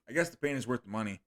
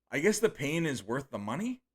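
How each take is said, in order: First: "I guess the pain is worth the money." said flat and quick, falling at the end; as a statement. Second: "I guess the pain is worth the money?" with a rising question tune at the end. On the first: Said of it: "He didn't do it as a question". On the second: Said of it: "I said it as a question". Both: Shown as a demonstration.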